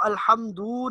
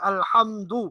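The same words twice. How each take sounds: First: The final vowel is drawn out long. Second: The final vowel is kept short. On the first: The speaker calls it wrong. "इसको अल्हम्दु नहीं कहना" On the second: The speaker calls it right. "बल्कि अल्हम्दु"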